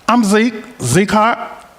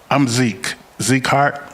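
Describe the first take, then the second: First: It is said in a put-on Southern accent. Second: It is said in the speaker's usual accent.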